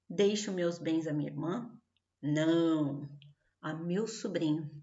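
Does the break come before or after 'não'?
after. A question, then a break after 'não'.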